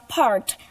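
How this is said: It is said with an American accent.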